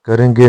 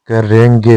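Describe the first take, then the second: First: करेंगे said briefly; incorrect form. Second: करेंगे with held nasal; correct form. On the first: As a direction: run करेंगे together. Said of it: "नहीं होता". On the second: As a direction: lengthen "reng" in करेंगे. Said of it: "होगा". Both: Shown as a demonstration.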